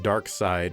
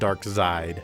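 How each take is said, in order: First: The second part sounds like the word 'side'. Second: The second part does not sound like 'side'. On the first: This is the intended pronunciation. "you're supposed to pronounce it Darkside" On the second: This is the speaker's own chosen pronunciation. "but I'm calling it Darkseid"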